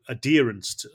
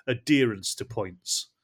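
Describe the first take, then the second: First: Said in the usual way. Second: Slow, each word laid out; slow and deliberate. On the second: Shown as a demonstration. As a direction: spell out the term slowly. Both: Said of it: "I'll define it more".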